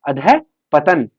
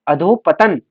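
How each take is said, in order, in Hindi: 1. बीच में छोटा a और सांस वाला h है। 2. बीच का स्वर o है, बिना सांस के। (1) "इसके बीच में जो है विसर्ग आता है" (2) "अधोपतन नहीं"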